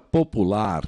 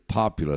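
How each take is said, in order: First: The stress is not on the first syllable. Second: The stress is on the first syllable. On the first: This is the Portuguese word. "que em inglês é igualzinha a português" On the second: This is the English word. "acentuação na primeira sílaba"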